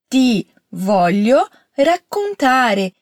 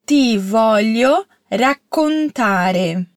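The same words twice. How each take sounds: First: "raccontare" with a long doubled C, held before the vowel; double consonant stressed. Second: Very slow "Ti voglio raccontare", every syllable clear; slow model phrase. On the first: Teacher shows the doubled consonant in raccontare. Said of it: "Caprichou na doppia consonante T C di raccontare?". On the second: Teacher models the sentence slowly for repetition. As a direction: draw the words out for the student to copy. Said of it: "Agora fala comigo". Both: Shown as a demonstration.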